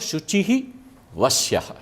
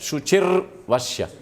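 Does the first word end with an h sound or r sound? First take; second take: h sound; r sound. First: The first word ends with an h sound. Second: The first word ends with an r sound. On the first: The words are split into separate words. "पदच्छेद किया तो ... विसर्ग हो जाएगा" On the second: The words are joined as in recitation. "र आ जाएगा"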